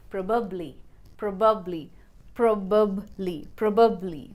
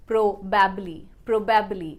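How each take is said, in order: First: "probably" as prob-ub-lee; weak schwa in the middle of "probably"; correct PROBABLY. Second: "probably" as pro-BAB-lee; full a in the middle of "probably"; wrong PROBABLY. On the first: Teacher drilling learners, "probably" as prob-ub-lee. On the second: Teacher showing the mistake, "probably" as pro-BAB-lee. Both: Shown as a demonstration. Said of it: "the right pronunciation should be".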